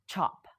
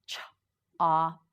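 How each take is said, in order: First: Said in the usual way. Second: Ch-op split into two slow parts, ch then op; sounds split apart. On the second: Shown as a demonstration. Teacher splitting the word for learners, slow and segmented. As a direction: break Ch-op into its sounds for the class. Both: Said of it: "Now you say it".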